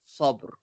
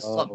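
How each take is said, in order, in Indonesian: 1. Kata ini diakhiri dengan bunyi r yang samar. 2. Kata ini tidak diakhiri bunyi r sama sekali. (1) "Dia ada bunyi ra sikit" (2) "bukan sob je"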